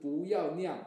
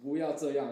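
First: It is said in a Taiwanese accent, merged. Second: It is said in a standard Mandarin accent.

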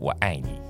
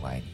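First: The words are articulated crisply and sharply. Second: The words are articulated softly and relaxed.

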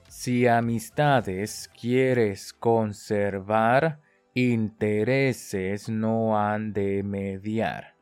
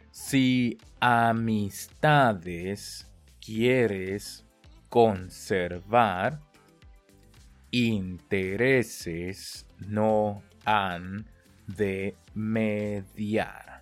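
First: The phrase is spoken faster still. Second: The phrase is spoken very slowly and carefully. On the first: "我们再加速哦" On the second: "跟着我念"

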